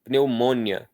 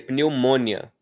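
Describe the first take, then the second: Both takes have the same delivery.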